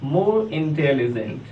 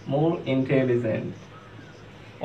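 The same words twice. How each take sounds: First: More intelligent drawn out very slowly; slow model phrase. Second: More intelligent repeated much softer and even slower. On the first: Teacher demonstrating the comparative form, very slow. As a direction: say it slowly for students to copy. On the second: Teacher repeating the comparative softly for students. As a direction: echo it quietly for the class to follow. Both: Shown as a demonstration. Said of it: "comparative form में लिखना है तो क्या हो जाएगा".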